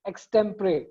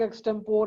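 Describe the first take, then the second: First: The word ends in two syllables, 'puh-ree'. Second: The word ends in a single 'pore' syllable. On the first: The speaker calls it right. "जो proper उसका pronunciation है" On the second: The speaker calls it wrong. "पढ़ते भी कुछ लोग एक्सटेम्पोर हैं"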